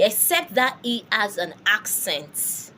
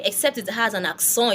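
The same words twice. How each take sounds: First: Accent said the English way, "AK-sent"; accent with a sounded final T; English pronunciation. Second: Accent said the French way, "ak-son"; accent with nasal ending, silent T; French pronunciation. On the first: Teacher naming the exception in English, English pronunciation. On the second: Teacher giving learners the French term, French pronunciation. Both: Shown as a demonstration. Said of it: "It's called accent in French".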